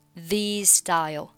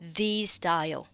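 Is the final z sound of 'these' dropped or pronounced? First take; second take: dropped; dropped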